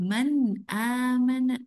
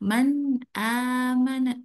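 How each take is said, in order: The two takes are said the same way.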